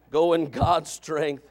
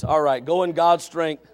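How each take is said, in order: First: Each word of "Go in God's strength" drawn out slowly; slow, deliberate. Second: Said in the usual way. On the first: Shown as a demonstration. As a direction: lay "Go in God's strength" down slowly and firmly as a charge.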